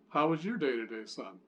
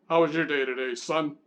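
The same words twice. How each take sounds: First: It sounds neutral, like a plain friendly question. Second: It sounds harsh, like a stern army officer.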